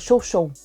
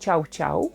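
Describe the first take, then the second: First: Each syllable sounds like 'show' in French. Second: Each syllable sounds like 'ciao' in Russian. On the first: "La race des chiens euh, chow chow" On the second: "les Russes prononcent cette race comme ciao ciao"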